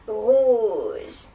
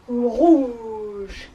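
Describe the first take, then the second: First: It is said in an evil witch voice. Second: It is said in a big elephant voice.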